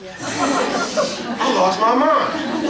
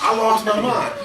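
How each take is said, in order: First: Stretched-out laughing wail, pitched higher; laughing, drawn out. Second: Said in the usual way. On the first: Real, not acted. Trainer laughing about a TV moment, drawn out. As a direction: let it dissolve into laughter, slowly.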